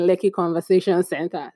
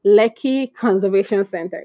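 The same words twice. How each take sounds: First: Joking slip on "Conservation"; jokey mispronunciation. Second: "Conservation" said carefully with "ser", not "ver"; proudly careful "Lekki Conservation Center"; careful correct pronunciation. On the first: Retold or imitated. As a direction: say "Conservation" as "Conversation" in "Lekki Conservation Center". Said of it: "used to joke around and keep saying". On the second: Shown as a demonstration. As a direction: land each word of "Lekki Conservation Center" cleanly. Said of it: "and I nailed it. First try".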